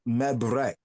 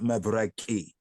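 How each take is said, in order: First: The word ends on a consonant sound. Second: The word ends with an added vowel sound. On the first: The speaker calls it right. "It should be me, mebrek" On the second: The speaker calls it wrong. "not mebreki ... It's not actually correct with that I at the end"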